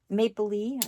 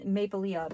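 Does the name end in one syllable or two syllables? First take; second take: one syllable; two syllables. First: The name ends in one syllable, 'Lee'. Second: The name ends in two syllables, 'Lee-ah'. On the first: The speaker calls it right. "I said it right" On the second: The speaker calls it wrong. "For the longest time I was calling Maple Leah, but I have been corrected"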